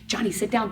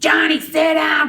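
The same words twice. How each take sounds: First: It is said quietly and calmly. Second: It is said loudly and sharply. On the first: Only the student is addressed, discreetly. The speaker calls it right. "We just go" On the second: The whole group is disrupted. The speaker calls it wrong. "we don't want to hear that"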